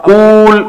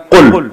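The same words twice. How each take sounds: First: قول with the oo drawn right out, qooool; overlong vowel. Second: قل short and quick, qul; shortened form. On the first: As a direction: stretch the vowel of قول to show how long it is. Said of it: "اب قول اتنا لمبا ہے". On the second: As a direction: cut the vowel short in قل. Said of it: "عرب نے اس کو بنا کے دیا قل". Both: Shown as a demonstration.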